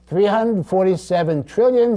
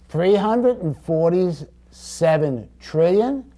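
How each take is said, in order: First: The number is read at a faster pace. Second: The number is read at a slower pace.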